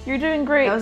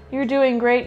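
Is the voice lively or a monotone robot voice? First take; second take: lively; monotone robot. First: It is said in a natural, expressive voice. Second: It is said in a flat, monotone robot voice.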